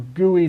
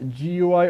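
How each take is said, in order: First: It is pronounced as a single word. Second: It is spelled out as three separate letters. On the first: "Some people actually prefer to pronounce it" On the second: "I'm not one of those people"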